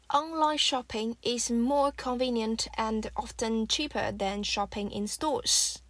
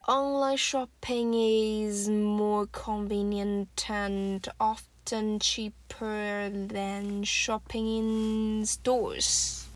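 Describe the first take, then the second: First: The sentence is said at normal speed. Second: The sentence is said slowly with linked words.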